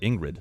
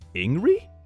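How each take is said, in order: First: The final D sound is clearly pronounced. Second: The final D sound is left silent. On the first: "here it's pronounced like Ingrid, the whole thing" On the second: "the D is silent"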